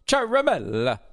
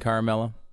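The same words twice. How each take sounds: First: The name is said with an Italian pronunciation. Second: The name is said with an anglicized pronunciation. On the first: The speaker calls it right. "It's Ciaramella. Because it's Italian" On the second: The speaker calls it wrong. "A lot of people are saying Ciaramella"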